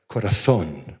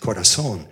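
First: The z is pronounced like th. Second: The z is pronounced like s. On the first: "I had to learn to say things like corazón" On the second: "In this Latin, say it corazón"

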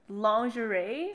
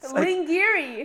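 First: The word has its usual heard pronunciation. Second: The word is sounded out from its spelling. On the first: This is how other people say it. "I heard people say" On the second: This is how it comes out when read from print. "when I see it imprinting, I pronounce this shit lingerie"

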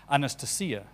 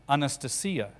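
First: The stress falls where Russian speakers put it. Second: The stress falls where Russian speakers put it.

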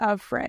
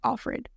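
First: It is split into two words, of Fred. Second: It is run together as one word. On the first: It shows she belongs to a man named Fred. "but it's of Fred" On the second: It is the name as used in the show. "in the show they pronounce it like Offred"

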